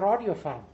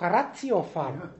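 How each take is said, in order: First: The middle consonant is a soft d sound. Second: The middle consonant is a hard t sound. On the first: It is the speaker's regional Franconian way of saying it. "ich bin doch Franke" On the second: It is the standard way the name is said.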